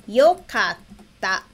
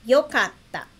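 First: "Yokatta" drawn out very slowly, every syllable clear; slow demo. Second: Said in the usual way. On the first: Shown as a demonstration. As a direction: spell out "Yokatta" by ear for the class. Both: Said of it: "Então, seria".

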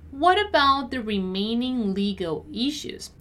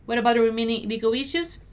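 First: Measured, carefully enunciated read; deliberate teacher's model. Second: Brisk natural-speed read; fast, connected teacher's model; quicker repeat. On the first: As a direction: take it word by word for learners. Teacher models sentence slowly first. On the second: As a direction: run it together quickly. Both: Shown as a demonstration.

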